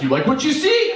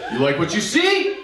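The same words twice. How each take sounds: First: High, cocky flirt line; cheesy flirt. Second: Higher, softened flirt line; demo of the flirt. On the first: Retold or imitated. To his wife while flexing, a high cocky flirt. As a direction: show off like a bodybuilder. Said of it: "And I'm like". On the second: Shown as a demonstration. To the audience, showing how it looked, a higher grinning flirt. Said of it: "this is what it looked like".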